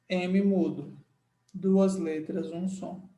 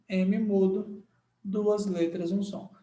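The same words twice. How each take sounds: The two takes are said the same way.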